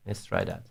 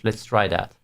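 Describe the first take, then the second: First: Low, quiet mutter to self; muttered aside. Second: Said in the usual way. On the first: Real, not acted. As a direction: mutter it to yourself. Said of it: "repeated much lower". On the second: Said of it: "repeated line".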